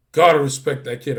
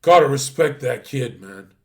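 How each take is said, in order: First: Said through a laugh, louder. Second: Said in the usual way. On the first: Retold or imitated. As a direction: chuckle while grudgingly conceding. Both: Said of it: "Gary's like this".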